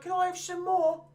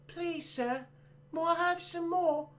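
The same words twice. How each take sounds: First: High, lifeless orphan line; flat bad delivery. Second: A light Cockney orphan begging, high and soft; Cockney accent. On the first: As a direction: read the famous line badly, like an actor who can't sell it. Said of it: "this kid can't deliver it for shit". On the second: Retold or imitated. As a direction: plead in a mild Cockney accent, like a timid orphan. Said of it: "Cockney accent".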